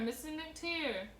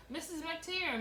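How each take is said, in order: First: Slow, stretched-out call of "McTeer", higher pitch; girl calling the mother again, slower and drawn out; drawn-out holler. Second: Put-on child calling out to the neighbor mother, higher pitch; girl tattling, hollering for Mrs. McTeer. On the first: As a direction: drag the name out long like a tattling child. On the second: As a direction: shout the name up toward the house. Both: A narrator's reading. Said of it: "Rosemary hollered".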